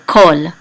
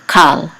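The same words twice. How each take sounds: First: Kol, vowel oh; old kamatz as o; kol with an o sound. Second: Kal, vowel ah; kal with an ah sound. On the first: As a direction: say "kol" with a round o, not "kal". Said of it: "And we say". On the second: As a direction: say "kal" with an open a, the modern way. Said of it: "instead of". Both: Shown as a demonstration.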